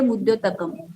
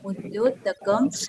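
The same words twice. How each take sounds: First: The word is rushed, with the nasal ending slurred. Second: The word is said carefully, with a clear nasal ending. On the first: The speaker calls it wrong. "घाई घाई में हम क्या बोलेंगे" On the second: The speaker calls it right. "क का ऊपर का अनुस्वार बहुत महत्वपूर्ण होता है"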